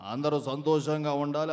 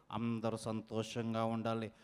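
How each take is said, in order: First: Low, full-voiced well-wishing; mimicry voice. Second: Very low, soft well-wishing; health-show host impression. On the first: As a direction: give the blessing in a low, steady put-on voice. (తగ్గు స్థాయిలో నిండైన mimicry గొంతు) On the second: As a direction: wish them well in a deep, hushed host voice. (లోతైన, చాలా మెల్లని mimicry గొంతు) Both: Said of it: "unique mimicry concept".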